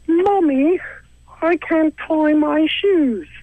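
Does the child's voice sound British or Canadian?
British. It is said like a British kid.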